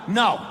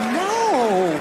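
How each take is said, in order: First: It is said firmly and seriously. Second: It is said playfully and teasingly.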